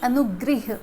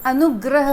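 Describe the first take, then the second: First: The last syllable is said as 'grih'. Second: The last syllable is said as 'grah'. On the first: The speaker calls it wrong. "न कि अनुगृह" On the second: The speaker calls it right. "अनुग्रह होता है"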